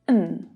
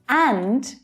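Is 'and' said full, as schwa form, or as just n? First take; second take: just n; full. First: The word is reduced to only an n sound. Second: The word is said in its full stressed form.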